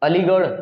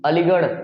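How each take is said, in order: No difference in how they are said.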